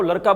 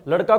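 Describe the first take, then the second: First: लड़का pronounced "laraka". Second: Said in the usual way. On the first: Retold or imitated. Teacher listing dialect examples, लड़का said with r. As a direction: tap r for ड़ in लड़का. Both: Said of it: "ड के स्थान पर र".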